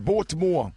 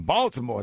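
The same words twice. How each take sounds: First: "Baltimore" said as "Bore-timore", punched louder; Baltimore accent. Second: Said in the usual way. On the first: Shown as a demonstration. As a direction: imitate a Baltimore accent with a rounded "Bore" opening. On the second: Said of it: "that's a whole different, uh, accent".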